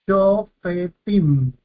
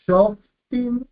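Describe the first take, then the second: First: SHOFETIM drawn out as sho-fe-tim, the middle e sounded; vocalized sheva. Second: SHOFTIM as two syllables, shof-tim, no e after the f; silent sheva. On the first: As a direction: say "shofetim" slowly in three syllables, sho-fe-tim. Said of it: "este sheva debe ser vocalizado". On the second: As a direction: run f straight into t in "shoftim". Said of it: "con un sheva silencioso". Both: Shown as a demonstration.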